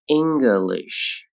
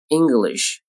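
First: "English" slowly, ending in a long sh; slow careful "English"; drawn-out model. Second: Said in the usual way. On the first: Shown as a demonstration. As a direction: stretch "English" out for learners. Teacher models word slowly, then normally.

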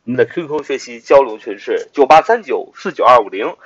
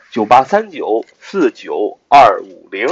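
First: Said in the usual way. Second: Number said again slowly, digit by digit; slow it down so they can copy it; slow repeat. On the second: Shown as a demonstration. Teacher repeating the group number slowly for listeners.

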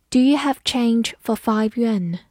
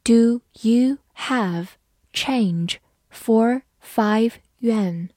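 First: Said in the usual way. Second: Slow, careful classroom read; slow model reading for learners. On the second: Shown as a demonstration. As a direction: read each word slowly and clearly. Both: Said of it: "好，慢读一遍".

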